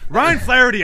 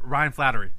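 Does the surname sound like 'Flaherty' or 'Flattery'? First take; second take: Flaherty; Flattery. First: The surname sounds like 'Flaherty', not 'flattery'. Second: The surname sounds like the word 'flattery'. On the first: The speaker calls it right. "I know how to say the name" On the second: The speaker calls it wrong. "He pronounced it wrong, though. He said Flattery"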